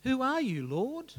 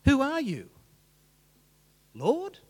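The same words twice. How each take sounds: First: "Who are you" run smoothly into a rising "Lord?"; awed questioning. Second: "Who are you" punched loud and high, pause, then "Lord?"; emphatic challenge. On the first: Saul asks heaven, "Who are you, Lord?" as one questioning phrase. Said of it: "does he ask it this way". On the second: Saul demands an answer, loud "Who are you", pause, startled "Lord?". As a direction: hit "Who are you" hard, then a separate, sharply rising "Lord?". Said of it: "where you put the emphasis in that question". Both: Shown as a demonstration.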